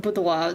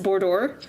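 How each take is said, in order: First: The word is pronounced in a strongly French way. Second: The word is pronounced in an anglicized English way. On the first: The speaker calls it wrong. "That's that's far too French" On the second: The speaker calls it right. "It's boudoir"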